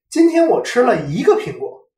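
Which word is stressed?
一个. The word 一个 carries the stress. Only one was eaten today, no more. "则表示我今天只吃了一个苹果，没有多吃"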